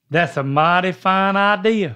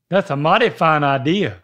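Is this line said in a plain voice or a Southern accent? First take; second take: plain; Southern. First: It is said in the speaker's natural voice. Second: It is said in a put-on Southern accent. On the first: The speaker calls it wrong. "now you're doing your own voice" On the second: The speaker calls it right. "Yeah, I like that"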